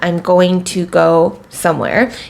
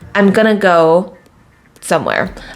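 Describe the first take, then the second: First: Every word is said fully and separately. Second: The words are squeezed into a short reduced form.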